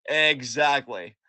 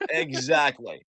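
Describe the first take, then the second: First: Exactly stretched slow and firm; drawn-out agreement. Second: Said in the usual way. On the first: Real, not acted. Co-host agreeing, drawn-out exactly. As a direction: lean into exactly, slowly.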